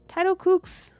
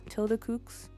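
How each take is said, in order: First: The first word sounds like "title" with a long i. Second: The first word sounds like "tilda" with a short i. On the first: The speaker calls it wrong. "I think I've been saying your name wrong, and I said it wrong right now" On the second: The speaker calls it right. "Is it Tilda"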